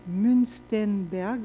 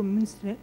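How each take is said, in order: First: "Münstenberg" said very slowly with a careful, shaky German accent; attempted German accent. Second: Said in the usual way. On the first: Shown as a demonstration. Lecturer naming a German psychologist, slow, awkward German accent. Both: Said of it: "mon accent allemand n'est pas très bon".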